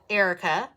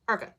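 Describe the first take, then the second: First: The name is said with three full syllables. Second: The name is squeezed into two syllables. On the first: "teachers would say Erica" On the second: "just like that, like almost like Urkel"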